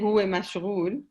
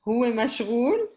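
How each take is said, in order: First: It is said with a plain statement intonation. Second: It is said with a questioning intonation. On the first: It states that he is busy. "it's as if you're giving a fact" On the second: It asks whether he is busy. "that's like, is he busy?"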